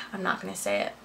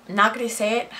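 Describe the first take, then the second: First: Softer, muttered-under-breath repeat; quieter repeat. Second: Said in the usual way. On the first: Real, not acted. Holding back gossip from viewers, softer repeat. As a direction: drop the level, say it again to yourself.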